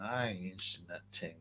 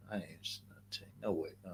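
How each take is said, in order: First: Said in the usual way. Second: Fast breathy whispered repeat. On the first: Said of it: "repeats it in a whisper". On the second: Shown as a demonstration. Streamer whispering the refusal to his chat. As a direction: whisper it quickly to yourself. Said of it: "whispered repeat of previous line".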